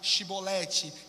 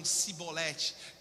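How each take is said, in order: First: It begins with an 'sh' sound, like the Judeans. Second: It begins with an 's' sound, like Ephraimites.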